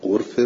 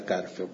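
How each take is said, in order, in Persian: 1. مصوت اول a باز نیست. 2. مصوت اول یک صدای a باز است. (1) "غرفه اسم است اما به جای مصدر نشسته" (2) "من فتح فا غرفه"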